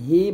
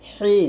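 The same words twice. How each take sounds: First: The h sound is light and plain. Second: The h sound is pressed and strong. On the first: The speaker calls it wrong. "এটাকে হি বলবেন না" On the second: The speaker calls it right. "বলবেন হি, একটু চাপ দিয়ে"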